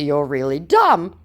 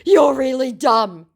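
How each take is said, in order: First: Said in the usual way. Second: High, loud, drawn-out jeer; hammed-up slow taunt; mock scammer insult.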